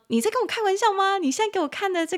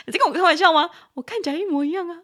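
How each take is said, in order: First: 你在跟我开玩笑吗 asked higher, in mock disbelief. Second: 你在跟我开玩笑吗 laughed out, higher and fast; laughing disbelief. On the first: Teacher acting out teasing a friend, mock disbelief. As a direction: pretend to doubt your friend's claim. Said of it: "跟他讲说". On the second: Retold or imitated. Teacher laughing at a friend over identical models, high and fast. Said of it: "就说".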